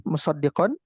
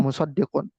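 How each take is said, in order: First: "musaddiqon" ending in -on, the nasab reading; accusative reading. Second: "musaddiqun" ending in -un, the dommah reading; nominative reading. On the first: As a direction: end "musaddiqon" on a clear -on. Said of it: "Bisa digunakan dinasabkan". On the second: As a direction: end "musaddiqun" on a rounded -un. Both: Shown as a demonstration.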